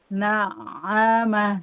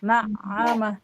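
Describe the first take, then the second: First: The ain sound flows slightly, half held, half flowing. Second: The ain sound is jerked and stopped abruptly. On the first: The speaker calls it right. "Ngalir sedikit antara mengalir dan tertahan" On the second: The speaker calls it wrong. "Jangan dihentak-hentak"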